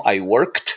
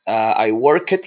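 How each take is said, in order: First: The word worked is said with one syllable. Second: The word worked is said with two syllables. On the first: The speaker calls it right. "because the pronunciation of the verb finishes by the sound k, so it's worked" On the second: The speaker calls it wrong. "I work it. No"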